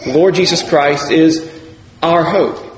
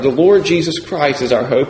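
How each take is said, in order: First: The stress is on the word our. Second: The stress is on Lord Jesus Christ.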